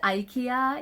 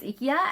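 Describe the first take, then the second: First: The name is said in an American way. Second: The name is said in a Japanese way. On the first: "the American is" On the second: "Japanese pronunciation is"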